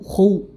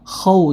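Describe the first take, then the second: First: The vowel after kh is rounded toward u. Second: The vowel after kh is an open a. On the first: The speaker calls it wrong. "jangan sampai khu" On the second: The speaker calls it right.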